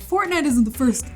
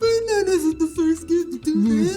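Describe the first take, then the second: First: It is said in a normal voice. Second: It is said in a put-on voice.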